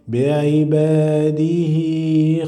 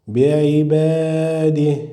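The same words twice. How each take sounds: First: The final letter carries a vowel, lengthened. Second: The final letter ends bare, with no vowel. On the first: The word is read joined to the next word. "you must pronounce the vowel and you must pronounce the sound of the letter ya" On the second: The reader pauses after this word. "read it as a consonant letter without the vowel"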